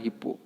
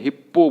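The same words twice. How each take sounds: First: हिप्पो with a single light p, "hi-po"; हिप्पो quick and light, as "hi-po"; correct pronunciation. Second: हिप्पो with a heavy doubled p; हिप्पो as "hip-po"; wrong pronunciation. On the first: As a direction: say हिप्पो softly, no doubled p. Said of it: "क्या बोलना है?". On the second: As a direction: hit हिप्पो hard on a held pp. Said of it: "ये गलत तरीका है". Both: Shown as a demonstration.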